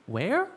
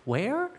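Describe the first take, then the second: No difference in how they are said.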